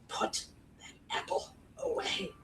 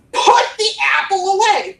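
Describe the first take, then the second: First: Slow, intense whispered command; urgent whisper. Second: Loud, high, urgent command; urgent shout. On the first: Coach showing urgency without volume, urgent whisper. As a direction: whisper the order, word by word. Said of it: "Both convey the same sort of urgency". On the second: Coach showing urgency by volume, urgent shout. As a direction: shout the order out. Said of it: "Nobody's gonna ever shout". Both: Shown as a demonstration.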